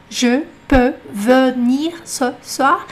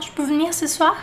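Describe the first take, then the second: First: "Je peux venir ce soir" very slow, word by word; como está escrito. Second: "Je peux venir ce soir" quick and joined, "ch'peu v'nir"; contração falada. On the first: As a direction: sound every E in "Je", "venir", "ce". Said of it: "repetir o que tá escrito". (devagar, lendo cada palavra inteira) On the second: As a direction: swallow the E in "Je" and "venir". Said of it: "tem que prestar atenção". (tudo junto, como se fala) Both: Shown as a demonstration.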